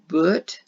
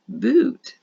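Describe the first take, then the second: First: The vowel is the short sound of book. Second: The vowel is the long sound of tooth. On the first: The speaker calls it wrong. "that doesn't sound right" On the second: The speaker calls it right. "you have to try the new one"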